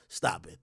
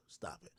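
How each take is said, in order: First: Said in the usual way. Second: Hushed unvoiced stop it; "Stop it." whispered, no voice. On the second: Real, not acted. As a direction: whisper "Stop it." under your breath. Whispered then said aloud.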